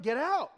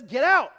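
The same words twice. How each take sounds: First: Raised, firm short command; authoritative. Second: Loud, raised command; commanding shout. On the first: Jesus when a demon shows up, authoritative. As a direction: dismiss it with authority. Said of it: "I don't just speak authoritatively". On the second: Jesus casting out the demon, commanding shout. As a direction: shout it as a full order. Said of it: "but he just says". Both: Acted.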